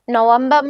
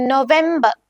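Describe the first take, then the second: First: "നവംബർ" said English-style as nuh-VEM-buh; English pronunciation. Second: "നവംബർ" said German-style as no-VEM-ba; German pronunciation. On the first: Teacher giving the English meaning, "നവംബർ" as nuh-VEM-buh. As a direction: say "നവംബർ" with a reduced first vowel. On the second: Teacher modelling German for learners, "നവംബർ" as no-VEM-ba. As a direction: say "നവംബർ" with o first, then a clear e. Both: Shown as a demonstration. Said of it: "pronunciation different ആണ്".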